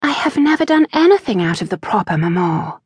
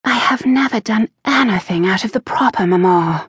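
First: High, fast, indignant protest; protesting daughter. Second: High, fast and firm; firm repetition. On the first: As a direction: protest your innocence, quickly and higher. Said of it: "she protested". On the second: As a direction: repeat it firmly, holding your ground. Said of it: "she repeated firmly". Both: A narrator's reading.

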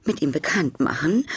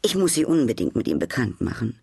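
First: Rising, higher alarmed echo of "machen"; surprised exclamation. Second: Said in the usual way. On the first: A narrator's reading. Duchess repeating the hostess's offer, rising alarmed echo. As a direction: echo her words back in disbelief. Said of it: "rief die Herzogin".

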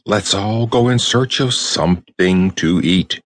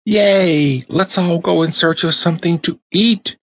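First: Said in the usual way. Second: High, bright chorus of eager dolls; excited dollies crying out. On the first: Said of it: "cried the tin soldier". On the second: A narrator's reading. Dollies cheer to each other, high and excited. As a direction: cheer it out like thrilled toys. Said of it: "cried all the other dollies".

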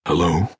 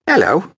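First: Put-on calm accented. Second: Very high, loud eager hello; enthusiastic. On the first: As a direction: greet her evenly. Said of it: "in a calm, accented voice". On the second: Acted. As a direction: greet him gladly. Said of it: "she returned with enthusiasm".

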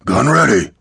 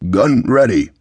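First: Raised, higher-pitched gunner's call; shouted reply. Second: Put-on firm, confident boy's report. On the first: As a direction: report back over the din. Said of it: "Lael shouted". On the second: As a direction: answer steadily and surely. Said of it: "His voice was as confident as his grip". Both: A narrator's reading.

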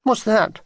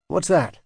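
First: Small, high, upset question; slightly tearful child's question; sniffy. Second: Said in the usual way. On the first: A narrator's reading. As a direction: ask it higher, as if near tears. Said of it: "she sniffed".

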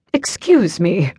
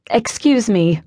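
First: Put-on slow, haughty British accent; drawn-out upper-class British; British snob looking down on a librarian. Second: Firm, polite librarian correcting a patron; a touch higher, prim and proper; best librarian tone. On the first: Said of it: "with an accent I'd last heard when Prince William visited". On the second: Acted. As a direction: librarian stopping a careless reader. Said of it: "in what I hoped was my best librarian tone".

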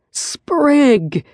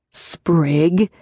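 First: Mild, higher bellow of a name. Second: Warning. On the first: Riker calling out to Sprig from the bed, a mild mock bellow. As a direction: call him out sharply, lightly acted. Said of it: "Riker bellowed from the bed". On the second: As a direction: caution him with just his name. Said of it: "Riker warned". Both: Acted.

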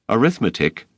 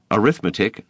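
First: Gasped. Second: Said in the usual way. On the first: A narrator's reading. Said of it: "he gasped". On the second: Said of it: "retelling the grade, narration".

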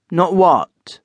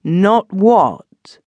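First: Sharp, louder demand; fierce demand. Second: Higher, louder, pressing the word Not; fierce repeated demand. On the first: Benson rounding on his cousin, fierce. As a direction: challenge him hard. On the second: Benson demanding the truth, fiercer still. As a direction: push him for the answer. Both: A narrator's reading. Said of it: "turning upon him fiercely".

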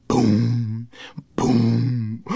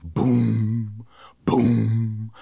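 The two takes are said the same way.

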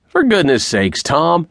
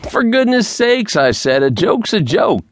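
First: Sharply higher, startled cry to stop him; alarmed plea. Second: Urgent repeated plea. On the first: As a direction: blurt it out as the gun comes up. Man alarmed at leveled gun. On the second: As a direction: beg him harder, voice climbing. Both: A narrator's reading.

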